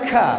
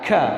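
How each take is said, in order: First: The consonant is released with a breathy hiss. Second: The consonant is released without any breathy hiss. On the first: The speaker calls it wrong. "jangan dibaca ka" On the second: The speaker calls it right. "Kalau dia tidak sukun posisinya, bukan hamas"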